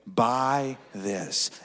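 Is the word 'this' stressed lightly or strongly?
lightly. The word 'this' is not specially stressed.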